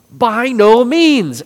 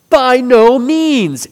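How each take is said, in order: First: High, loud, slow "By no means!"; slow forceful proclamation; emphatic exclamation. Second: High, loud and slow "By no means!"; Paul's strong denial, slow and forceful; emphatic exclamation. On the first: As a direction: ring out "By no means" as a firm denial. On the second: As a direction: hammer out "By no means" slowly and loudly. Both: Shown as a demonstration. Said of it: "Exclamation point".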